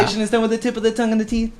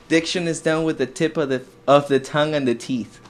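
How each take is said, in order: First: The sentence is said at normal speed. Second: The sentence is said slowly.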